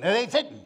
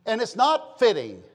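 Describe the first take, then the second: First: Lightly voiced country mama; mama's voice. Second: Said in the usual way. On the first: Preacher quoting your mama, lightly imitated country mother. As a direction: imitate a folksy Southern mother. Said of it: "and your mama would say".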